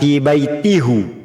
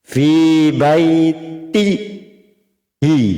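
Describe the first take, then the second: First: The final pronoun is said with a u vowel. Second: The final pronoun is said with an i vowel. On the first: The speaker calls it wrong. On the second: The speaker calls it right.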